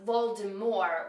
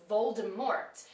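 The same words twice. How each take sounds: First: The final T is silent. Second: The final T is pronounced. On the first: The speaker calls it right. "with a silent T" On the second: The speaker calls it wrong. "I always thought you pronounced the T at the end"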